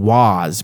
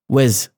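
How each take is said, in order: First: The word is said fully with a clear vowel. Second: The word is weak with a reduced vowel. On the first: "I'm not saying was" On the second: "I'm saying was"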